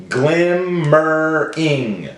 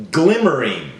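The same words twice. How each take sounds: First: "Glimmering" slowly in three beats; broken into syllables. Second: Said in the usual way. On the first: Shown as a demonstration. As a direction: stretch "Glimmering" into glim, mer, ing. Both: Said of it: "Break it up".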